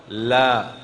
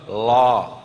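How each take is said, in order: First: La with the tongue tip forward; the Quranic lam in la; correct lam. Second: La said slowly with the tongue pulled up to the palate; the Indonesian l in la; wrong lam. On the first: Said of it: "Coba la". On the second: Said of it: "jangan la". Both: Shown as a demonstration.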